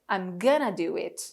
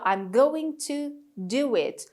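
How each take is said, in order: First: "Going to" is reduced to "gonna". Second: "Going to" is said in full, every syllable.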